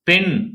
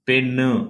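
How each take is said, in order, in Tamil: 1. சொல் மெய்யொலியில் முடிகிறது. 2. சொல் சேர்க்கப்பட்ட 'u' உயிரொலியுடன் முடிகிறது.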